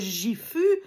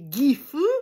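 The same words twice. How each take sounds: First: It begins with a soft French J sound. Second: It begins with a hard G sound. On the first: The speaker calls it wrong. "on ne dit pas Gifu" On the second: The speaker calls it right. "mais Gifu"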